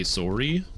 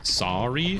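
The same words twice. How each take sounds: First: "sorry" as SORE-ee, with a rounded oh; Canadian pronunciation. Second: "sorry" as SAR-ee, with an open ah; open-vowel pronunciation. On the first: Showing how Canadians say it, "sorry" as SORE-ee. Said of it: "and Canadians say sorry". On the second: Showing one side of the difference, "sorry" as SAR-ee. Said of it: "Ancients pronounce it sorry". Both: Shown as a demonstration.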